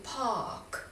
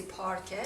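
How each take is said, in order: First: "پارک" as British park, long ah, silent r; British pronunciation. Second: "پارکه" with the r sounded; Persian pronunciation. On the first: Teacher showing the British way, long ah without r. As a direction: drop the r in "پارک" and stretch the ah. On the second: Teacher quoting the Persian word, r pronounced. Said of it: "در زبان فارسی". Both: Shown as a demonstration.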